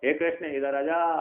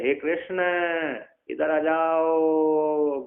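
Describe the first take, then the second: First: The call has somewhat drawn-out vowels. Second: The call has very long drawn-out vowels. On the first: The person being called is a little far away. "दूर का बुलाना है तो थोड़ी दूर पे हो" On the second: The person being called is very far away. "एक किलोमीटर दूर बुलाना है"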